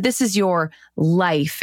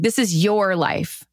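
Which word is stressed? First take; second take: life; your. First: The stress is on the word life. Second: The stress is on the word your.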